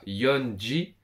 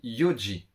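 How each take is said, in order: First: An 'n' sound comes before 'ji'. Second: No 'n' sound comes before 'ji'. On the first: The speaker calls it wrong. "on ne dit pas yonji" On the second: The speaker calls it right. "on dit yoji"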